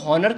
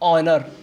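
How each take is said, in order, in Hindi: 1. शब्द की शुरुआत में साफ़ सुनाई देने वाली 'h' ध्वनि है। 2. शब्द की शुरुआत स्वर से होती है, 'h' ध्वनि नहीं है। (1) "शुरुआत में एच है तो इसको हॉनर क्यों नहीं कह रहे" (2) "इसको बोलते हैं ऑनर"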